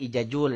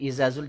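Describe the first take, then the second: First: The middle consonant is a j sound. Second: The middle consonant is a z sound.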